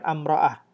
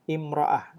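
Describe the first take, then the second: First: The word begins with an 'a' vowel. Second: The word begins with an 'i' vowel. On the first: The speaker calls it wrong. "bukan amra'ah" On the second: The speaker calls it right. "bahasa Arabnya imra'ah"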